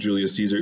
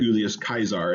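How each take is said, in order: First: The name is pronounced the usual English way. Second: The name is pronounced the classical Latin way.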